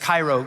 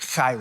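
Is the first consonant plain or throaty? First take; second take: plain; throaty. First: The first consonant is a plain, clean k. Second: The first consonant is a rough, throaty rasp. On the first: "not just Cairo" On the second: "work up a little bit of spit and it's like Cairo"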